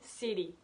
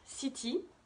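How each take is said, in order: First: The middle consonant is a soft D sound. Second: The middle consonant is a clear T sound.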